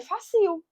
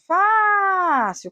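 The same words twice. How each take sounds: First: "fácil" misread as fa-CIL, stressed at the end; misplaced final stress. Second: "Fácil" with FÁ stretched high and loud; stress on FÁ. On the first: Teacher showing how many would misread fácil, stress on the end. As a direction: throw the stress onto the last syllable of "fácil". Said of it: "Se eu não colocasse o acento". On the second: Teacher asking which syllable of fácil is stressed, FÁ drawn out. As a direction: hold the first syllable of "Fácil". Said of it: "Qual é a sílaba tônica?". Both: Shown as a demonstration.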